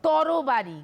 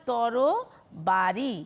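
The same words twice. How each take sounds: First: Said in the usual way. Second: "তরবারি" stretched, every syllable drawn out slowly. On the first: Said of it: "ধরো". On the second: Shown as a demonstration. Teacher repeating the example word very slowly for students. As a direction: draw out তরবারি so each syllable can be heard. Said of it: "কি বললাম?".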